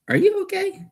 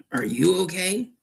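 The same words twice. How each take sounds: First: Whisper. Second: Said in the usual way. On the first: Real, not acted. Asking Ghost if he's okay, whispered. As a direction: breathe the question out in a whisper. Checking on Ghost after odd sounds.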